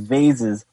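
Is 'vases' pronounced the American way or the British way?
American. The word is said with an American pronunciation.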